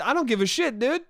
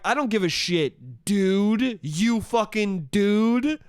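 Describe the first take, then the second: First: Quick, unstressed "dude" tossed on at the end; "dude" clipped short as a throwaway tag; DUDE as afterthought. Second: Long, drawn-out "dude", set apart and weighted; DUDE as insult. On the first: Retold or imitated. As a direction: tack "dude" on short and casual, no weight on it. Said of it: "it was clearly an afterthought". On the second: Shown as a demonstration. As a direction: stretch "dude" slowly into a pointed accusation. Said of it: "It'd be different if I was like".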